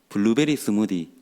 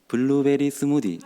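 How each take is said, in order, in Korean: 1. 방언식으로 음높이가 다양하게 변하며 말합니다. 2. 한 가지 평평하고 일정한 음높이로 말합니다. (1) "저 같은 경우에는 블루베리 스무디 주세요 이렇게 이야기해요" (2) "하나의 음으로 이야기한다라고 들어서 블루베리 스무디 이렇게"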